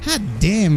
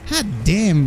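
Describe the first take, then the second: First: It is said in a suggestive, flirty tone. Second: It is said in a suggestive, flirty tone.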